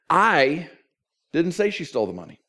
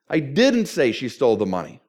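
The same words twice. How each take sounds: First: The stress falls on the word I. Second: The stress falls on the word didn't. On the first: Someone else said it. "Somebody else said it" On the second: The listener wrongly believes it was said. "And apparently you think I did"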